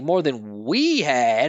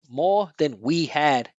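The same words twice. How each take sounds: First: The pronoun we is stressed and emphasized. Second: The pronoun we is unstressed and reduced. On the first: "it's not like more than we had" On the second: "those pronouns are not content words"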